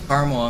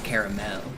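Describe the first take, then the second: First: The word is said in a plain everyday way. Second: The word is said in a fancier, more careful way. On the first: This is the usual way of saying it. "Caramel unless I'm trying to be fancy" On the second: The speaker is trying to sound refined. "and then it's caramel"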